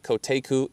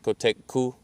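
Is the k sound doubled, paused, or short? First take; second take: short; paused. First: The k in the middle is short. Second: There is a pause at the k. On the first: The speaker calls it wrong. "is not Koteku" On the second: The speaker calls it right. "you can also pause there and say Kotekku"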